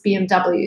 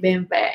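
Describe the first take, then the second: First: The letters are said the American way. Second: The letters are said the Russian way. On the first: "in America it's" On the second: "in Russia we say"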